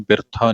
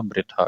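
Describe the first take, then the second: First: ਬਿਰਥਾ as bir-tha; r after the vowel. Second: ਬ੍ਰਿਥਾ begun with a joined br. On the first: Teacher showing the mistake, ਬਿਰਥਾ split as bir-tha. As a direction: say ਬਿਰਥਾ with i between b and r. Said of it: "ਇਹਨੂੰ ਬਿਰਥਾ ਨਹੀਂ ਕਹਿਣਾ". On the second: Teacher correcting readers, ਬ੍ਰਿਥਾ with r straight after b. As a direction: say ਬ੍ਰਿਥਾ as bri-tha. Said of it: "ਕਿਉਂਕਿ ਰਾਰਾ ਬੱਬੇ ਦੇ ਪੈਰ ਵਿੱਚ ਹੈ". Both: Shown as a demonstration.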